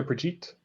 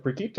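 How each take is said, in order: First: Brigitte with a soft g; alternative pronunciation. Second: Brigitte with a hard g; unsure pronunciation. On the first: Game master checking a player's character name, soft-g Brigitte. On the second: Game master checking a player's character name, hard-g Brigitte. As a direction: say Brigitte with g as in geese. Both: Shown as a demonstration. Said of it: "gonna get the name wrong. Was it".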